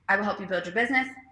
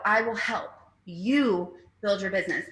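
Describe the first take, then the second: First: It runs straight through without a pause. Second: There is a clear break after 'help'. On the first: The helper builds the business for the other person. "An employee" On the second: The helper supports, but the other person builds the business. "I will help, period, capital you build your business"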